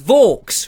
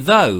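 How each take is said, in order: First: The name rhymes with 'forks'. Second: The name does not rhyme with 'forks'. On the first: The speaker calls it right. "rhymes with forks" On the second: The speaker calls it wrong. "I would call him Gary Vo, because I didn't quite know how to pronounce it"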